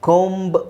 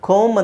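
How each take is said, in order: First: A b sound is heard after the m. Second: The word ends on the m sound. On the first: The speaker calls it wrong. "ಕೋಂಬ್ ಅಂತ ಹೇಳೋ ಅವಶ್ಯಕತೆ ಇಲ್ಲ" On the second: The speaker calls it right. "ಕೋಮ್ ಅಂತ ಹೇಳಿದ್ರೆ ಸಾಕು"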